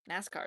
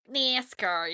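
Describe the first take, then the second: First: Said in the usual way. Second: Nascar loud, with a twanged nasal first vowel; nasally weird voice. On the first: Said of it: "the one that I was doing with". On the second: Shown as a demonstration. Streamer showing the weird voice done with nascar, nasally Southern twang. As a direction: blare nascar through the nose. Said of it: "like, nasally weirdness".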